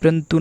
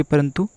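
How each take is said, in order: First: परंतु squeezed to "prantu"; परंतु as प्रंतु; wrong pronunciation. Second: परंतु with a vowel after the p; परंतु in three full syllables; correct pronunciation. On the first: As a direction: drop the first vowel of परंतु. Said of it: "परंतु नहीं". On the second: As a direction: say परंतु as "pa-ran-tu". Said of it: "परंतु सही वर्तनी होगी". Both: Shown as a demonstration.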